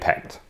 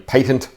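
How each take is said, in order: First: The word has an American pronunciation. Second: The word has a non-American pronunciation.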